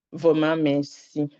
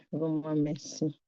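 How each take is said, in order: First: Slow, pressed "vraiment merci", leaning on "vraiment"; slow earnest "vraiment merci"; heartfelt thanks. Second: "vraiment merci" dropped much softer, almost to herself; much softer repeat of "vraiment merci"; soft echoed thanks. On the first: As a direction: thank God slowly, each word weighted. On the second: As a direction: let the repeat fade into a soft hush. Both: Real, not acted.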